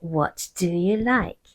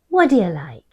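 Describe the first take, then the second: First: Each word is said crisply and separately. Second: The words run together with a softened d. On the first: The situation is formal. "in a formal circumstance ... really good diction" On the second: The situation is informal. "if you're speaking more informally"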